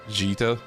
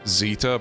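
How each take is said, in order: First: The name starts with a j sound. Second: The name starts with a z sound. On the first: The speaker calls it right. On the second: The speaker calls it wrong.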